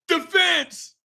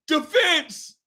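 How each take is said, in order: The two takes are said the same way.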